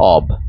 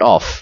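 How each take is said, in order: First: The word ends with a voiced v sound. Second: The word ends with a voiceless f sound. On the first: The speaker calls it right. "এটার সঠিক উচ্চারণ হচ্ছে অব" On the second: The speaker calls it wrong. "Not অফ"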